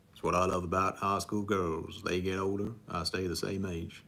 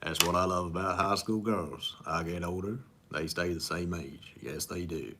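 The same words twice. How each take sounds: First: A Matthew McConaughey impression fluffed with the words swapped; botched first try at the movie line; wrong take of the impression. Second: Lightly voiced Southern charmer, unhurried; corrected second take of the movie line; Matthew McConaughey impression. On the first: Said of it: "I said that wrong". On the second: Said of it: "Matthew McConaughey, uh, impression".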